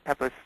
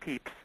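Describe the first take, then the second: First: The name is said the more familiar way. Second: The name is said the old English way. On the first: "PEPIS I think is a lot more familiar to us" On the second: "the old English pronunciation or the English pronunciation would be PEEPS"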